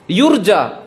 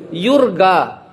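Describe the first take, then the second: First: It is said with a standard Arabic j sound. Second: It is said with an Egyptian hard g sound.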